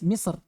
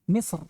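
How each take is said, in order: Both takes have the same delivery.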